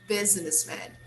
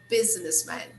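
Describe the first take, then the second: Both takes have the same delivery.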